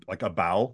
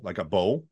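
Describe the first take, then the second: First: "bow" rhyming with cow; ow vowel in bow. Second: "bow" rhyming with go; oh vowel in bow. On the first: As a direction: say "bow" with an ow, as in taking a bow. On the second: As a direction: say "bow" with a long oh, as in bow and arrow. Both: Shown as a demonstration. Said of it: "differences are subtle in terms of ow".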